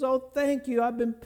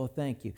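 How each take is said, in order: First: High, bursting with relief; overjoyed thanks. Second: Soft, low little thank-you; quiet thanks. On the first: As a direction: gush it out with joy. Owner gets her lost ring back. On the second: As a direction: murmur it gratefully. Person returning the twenty dollars. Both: Retold or imitated.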